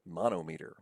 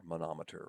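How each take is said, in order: First: "Manometer" said as MON-oh-MEE-ter; split-word pronunciation. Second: Said in the usual way. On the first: Shown as a demonstration. Teacher shows students the parts of a term, "Manometer" as MON-oh-MEE-ter. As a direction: say "Manometer" as two words, mono and meter. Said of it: "Manometer, manometer". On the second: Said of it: "we would probably say that's manometer".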